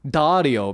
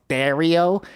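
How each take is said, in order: First: The first vowel is open and unpinched. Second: The first vowel is pinched and squeezed, nasal. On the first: The speaker calls it right. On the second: The speaker calls it wrong.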